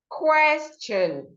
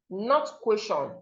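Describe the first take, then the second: First: The middle T is pronounced as ch. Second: The middle T is pronounced as t. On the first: The speaker calls it right. "the T here makes the sound, ch" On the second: The speaker calls it wrong.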